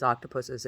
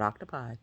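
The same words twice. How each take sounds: First: Octopuses said OCK-tuh-puss-iz; octopuses, not octopi. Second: Octopi said OCK-tuh-pie. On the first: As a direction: octopuses with a plural -es ending. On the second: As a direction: octopi ending in a long i. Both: Shown as a demonstration. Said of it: "It is not octopi".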